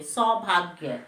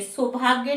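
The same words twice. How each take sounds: First: सौभाग्य with a full au and gya at the end, slow; correct saubhaagya. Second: सौभाग्य with a short u and a loose end; wrong subhaag. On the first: Teacher giving class the correct सौभाग्य. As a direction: draw out the au in सौभाग्य. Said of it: "सौ में औ की मात्रा". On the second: Teacher showing students the wrong सौभाग्य. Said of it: "सौभाग्य नहीं बोलते". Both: Shown as a demonstration.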